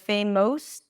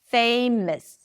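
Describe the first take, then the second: First: The final syllable has a full, clear vowel. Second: The final syllable is reduced to a schwa. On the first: The speaker calls it wrong. "or famous" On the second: The speaker calls it right. "It's just a schwa"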